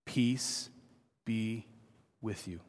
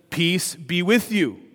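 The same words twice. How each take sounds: First: Hushed, low, a pause after each word; very soft and slow, sinking away at the end; tender personal blessing. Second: Slow, full-voiced scripture greeting; measured and declarative, each word given room; proclaimed greeting. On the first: Acted. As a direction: offer it softly, word by word. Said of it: "and he says it to you this morning". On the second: A narrator's reading. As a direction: read it out slowly as a proclamation. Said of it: "said to them".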